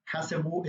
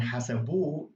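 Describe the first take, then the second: First: Said in the usual way. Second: Hasabu with a long, stressed final -bu; stress on last syllable. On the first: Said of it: "is without the ha". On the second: Shown as a demonstration. Teacher shows the ha ending, last syllable of hasabu stressed. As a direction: push the emphasis onto the end of hasabu. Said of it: "is with the ha at the end".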